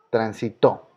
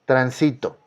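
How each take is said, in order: First: "Transitó" with stress on the last syllable, tran-si-TÓ; acento agudo. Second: "Tránsito" said tran-SI-to, stress on the middle syllable; acento grave. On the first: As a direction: save the weight for TÓ in "Transitó". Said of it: "en la primera y en la última". ("Transitó" con fuerza en la última sílaba, TÓ) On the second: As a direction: put the weight on SI in "Tránsito". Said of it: "Una palabra grave". ("Tránsito" como palabra grave, tran-SI-to) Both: Shown as a demonstration.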